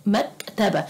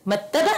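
First: Said in the usual way. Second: مكتبة without its k, as "mattaba", rising high; wrong guess. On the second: Shown as a demonstration. Teacher trying a letter that fails, rising "mattaba?" for مكتبة. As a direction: ask مكتبة as a doubtful "mattaba?".

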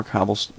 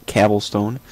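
First: Said in the usual way. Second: "cobblestone" corrected to "cabblestone"; "cobblestone" with the A of cab; joke mispronunciation. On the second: Shown as a demonstration. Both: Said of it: "That's how you say it".

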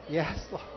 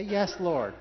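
First: Said in the usual way. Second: Called out. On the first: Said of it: "Come on, practice again". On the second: Shown as a demonstration.

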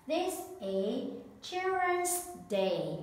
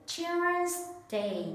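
First: Slow, careful teacher voice; slow classroom model; slow presentation. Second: Put-on "Children's Day" said higher and brighter for the class; high emphatic model. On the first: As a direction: present "Children's Day" slowly and clearly. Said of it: "teacher presents new word". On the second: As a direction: lift "Children's Day" up for copying. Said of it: "listen and repeat after me". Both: Shown as a demonstration.

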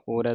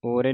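First: ਓਰੈ ending in open ai. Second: ਓਰੇ ending in long e; closed e ending. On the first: Teacher modelling it for students, ਓਰੈ with final ai. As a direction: open the last vowel of ਓਰੈ to ai. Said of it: "ਓਰੈ ਦਲਾਵਾਂ ਦੇ ਨਾਲ". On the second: Teacher showing students the mistake, ਓਰੇ with final e. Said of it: "ਓਰੇ ਨਹੀਂ ਪੜ੍ਹ ਦੇਣਾ". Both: Shown as a demonstration.

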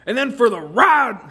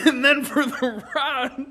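First: Loud line breaking into laughter; cracking up. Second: Slower, higher retake still giggling; laughing retake. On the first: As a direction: lose it mid-line. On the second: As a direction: try again through laughter. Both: Real, not acted.

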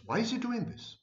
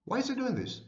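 First: High-pitched mock bewilderment, mimicking the confused fan; puzzled viewer. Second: Higher mock bewildered echo of the question; puzzled viewer. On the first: Confused narcissist viewer wondering about the speaker, mock puzzled high voice. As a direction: ask it like a baffled follower, much higher. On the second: Confused viewer asking again why he does it, mock puzzled. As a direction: repeat the baffled follower's question, pitched up. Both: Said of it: "this creates in you a cognitive dissonance".

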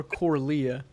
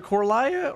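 First: "Corlia" with LEE in the middle, kor-LEE-uh; "Corlia" with a long-e second syllable; second pronunciation option. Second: "Corlia" with LIE in the middle, kor-LIE-uh; "Corlia" with a long-i second syllable; first pronunciation option. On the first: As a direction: say "Corlia" with an ee sound. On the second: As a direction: say "Corlia" to rhyme with papaya. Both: Shown as a demonstration. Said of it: "is it Corlia or Corlia?".

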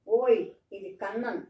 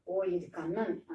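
First: Loud startled "ఓయ్, ఇది Kannan", punched on ఓయ్; surprised cry. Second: Slow, drawn-out "ఓ, ఇది Kannan" with a stretched ఓ; wondering surprise. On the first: Daughter spots the old ox at the door, loud surprised cry. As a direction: blurt it out, caught off guard. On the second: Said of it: "ఇప్పుడు ఆశ్చర్యంగా అంటుంది". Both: Retold or imitated.

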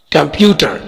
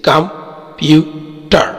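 First: Said in the usual way. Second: "computer" slowly as three pieces, कं, प्यू, टर; split into syllables. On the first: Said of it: "इसमें तीन syllable है". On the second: Shown as a demonstration. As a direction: pause after each syllable of "computer". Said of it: "इसमें तीन syllable है जैसे". ("Computer" کو تین حصوں میں ٹھہر ٹھہر کر)

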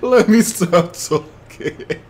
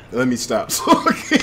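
First: Drawn out. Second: Laughing. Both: Real, not acted.

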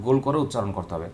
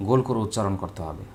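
Both takes have the same delivery.

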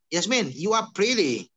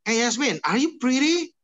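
First: "you are pretty" falling to a close; settled downward tune on "pretty"; statement intonation. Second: "are you pretty" high and loud, rising at the end; big questioning lift on "pretty"; question intonation. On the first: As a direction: state it, letting "pretty" drop. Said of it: "Different ya". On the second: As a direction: ask it with "pretty" swept right up. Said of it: "itu kalimat tanya". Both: Shown as a demonstration.

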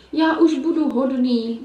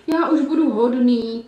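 First: Slow, pleading, half-sobbed promise; a big wolf whimpering he'll be good; sobbing wolf. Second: Slow, pleading wail; wailing wolf. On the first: Wolf caught crying to the girls, sobbing slowly. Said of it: "vzlikal tam vlk". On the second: Wolf still lying on the ground, wailing his promise. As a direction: keep begging through the whimpers. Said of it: "pokračoval vlk v úpěnlivém kvílení". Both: Acted.

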